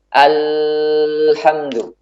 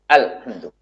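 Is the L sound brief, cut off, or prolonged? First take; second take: prolonged; cut off. First: The L sound is held out long. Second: The L sound is cut off abruptly. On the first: "Tidak juga dibuat mengalir yang panjang. ... Ini juga tidak tepat" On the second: "Ini suaranya tertahan. Tidak mengalir"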